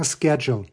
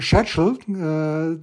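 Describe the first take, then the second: First: It is said the American way. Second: It is said the Australian way.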